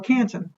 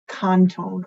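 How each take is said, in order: First: It is said with an English-style pronunciation. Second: It is said with a French-style pronunciation. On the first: "as we would say" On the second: "I'm not going to say it right"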